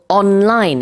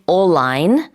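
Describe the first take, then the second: First: Both the N and the L are sounded. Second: The N merges into the L sound. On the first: The speaker calls it right. "you have to pronounce both uh, both of those consonants" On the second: The speaker calls it wrong. "can't say online. That doesn't make sense in English"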